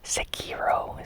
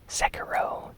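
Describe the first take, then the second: First: The name is pronounced the Japanese way. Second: The name is pronounced the English way.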